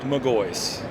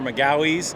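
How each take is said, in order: First: The name is said as Magoys. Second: The name is said as Magawies. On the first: The speaker calls it right. "but it's pronounced Magoys" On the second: The speaker calls it wrong. "Most people say it's Magahis or Magawies"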